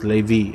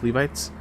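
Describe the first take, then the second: First: The word ends without any final 'tes' sound. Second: The word ends with a final 'tes' sound. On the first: The speaker calls it right. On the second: The speaker calls it wrong.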